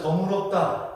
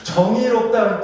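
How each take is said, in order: First: "정의롭다" said as jeong-eu-rop-da, Jeolla style; Jeolla pronunciation. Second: "정의롭다" with 의 fully sounded; full ui diphthong. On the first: Preacher shows Jeolla speakers saying just, Jeolla eu for ui. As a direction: Jeolla accent, reducing 의 to eu in "정의롭다". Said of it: "뭐 이렇게 된다는 거예요". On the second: Preacher models the word just, full vowel in "정의롭다". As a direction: keep the glide in 의 of "정의롭다". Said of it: "의 발음이 잘 안 돼요". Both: Shown as a demonstration.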